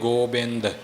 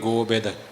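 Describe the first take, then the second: First: The word is said with a nasal 'n' sound. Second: The word is said without a nasal 'n' sound. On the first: "ਜਿੱਥੇ ਟਿੱਪੀ ਹੈ ਉੱਥੇ ਬੋਲਾਂਗੇ ਗੋਬਿੰਦ" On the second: "ਜਿੱਥੇ ਟਿੱਪੀ ਨਹੀਂ ਉੱਥੇ ਬੋਲਾਂਗੇ ਗੋਬਿੰਦ"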